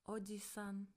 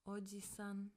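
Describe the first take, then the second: Both takes have the same delivery.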